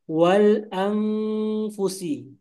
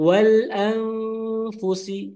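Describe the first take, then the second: First: The nasal is a clear 'ng' sound. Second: The nasal is hidden and blends into f. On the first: The speaker calls it wrong. "Yang salah itu berubah jadi ang" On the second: The speaker calls it right. "samar dan lidahnya langsung ke makhraj huruf tersebut"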